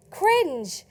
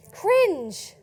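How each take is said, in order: Both takes have the same delivery.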